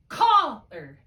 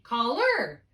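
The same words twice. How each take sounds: First: Heavy first syllable in caller, weak tail; stress on first syllable. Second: "caller" as call-ER, loud high ER; unstressed call, strongly punched LER; stress on second syllable. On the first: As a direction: punch CALL, drop the er. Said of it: "I'm gonna put the accent here". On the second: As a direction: demonstrate caller with the accent on ER. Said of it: "If I put an accent here". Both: Shown as a demonstration.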